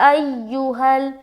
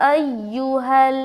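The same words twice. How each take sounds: Both takes have the same delivery.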